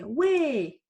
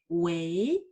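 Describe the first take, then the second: First: The syllable is said with the fourth tone. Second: The syllable is said with the second tone. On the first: It calls out to get someone's attention. "en prononçant quatrième don" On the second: It is said when answering the phone. "On va prononcer deuxième don"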